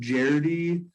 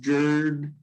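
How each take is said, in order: First: The name is said with two syllables. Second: The name is said with one syllable. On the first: "I think Jardy is right" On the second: "I've heard Jerd"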